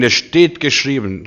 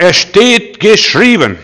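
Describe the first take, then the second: First: Said in the usual way. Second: Viel höher, lauter, langsam, steht gedehnt; „Es steht geschrieben“ langsam und mächtig ausrufen; feierlich proklamiert. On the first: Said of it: "halte so lang zehn Bibelstellen entgegen". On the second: Shown as a demonstration. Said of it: "Und sag". (laut, langsam und feierlich verkündet)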